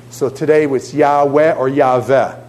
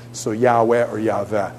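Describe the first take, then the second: First: "Yahweh" said first with a W, then as "Yahveh" with a V; Yahweh two ways. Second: "Yahweh" said with a W, then "Yahweh" with a V, more quietly; soft W versus V take of "Yahweh"; Yahweh two ways. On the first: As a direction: say "Yahweh or Yahweh" once with W and once with V. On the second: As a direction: repeat "Yahweh or Yahweh", W then V, softer. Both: Shown as a demonstration. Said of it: "the W can actually sound like a V".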